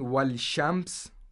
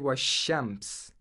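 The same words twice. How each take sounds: First: An L sound is heard before the sh. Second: No L sound; the sh is doubled. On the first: The speaker calls it wrong. "instead of saying washems, which is actually hard" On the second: The speaker calls it right. "we say washems"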